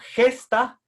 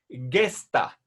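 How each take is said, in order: First: It starts with a throaty, h-like sound. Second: It starts with a hard g sound. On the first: The speaker calls it wrong. "que es la pronunciación castellana" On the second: The speaker calls it right. "como si estuviera el, después de la G una U"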